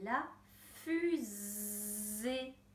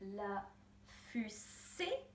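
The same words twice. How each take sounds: First: The middle consonant is a buzzing Z sound. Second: The middle consonant is a hissing S sound. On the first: The speaker calls it right. "mais la fusée" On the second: The speaker calls it wrong. "Je ne dis pas la fusée"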